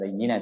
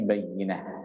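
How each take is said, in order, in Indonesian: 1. Kata ini berakhir dengan bunyi t yang mendesis. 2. Kata ini berakhir dengan bunyi h yang lembut. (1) "itu bukan bayyinat" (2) "tetapi bayyinah"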